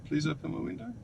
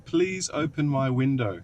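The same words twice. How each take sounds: First: Softer, higher polite ask; polite request. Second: Slowly drawn-out, careful request; slow, deliberate command. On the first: Asking the car to open the window, polite request. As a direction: ask it nicely and softly. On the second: Repeating for the unresponsive car, slow deliberate command. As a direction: spell it out slowly for a machine. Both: Real, not acted.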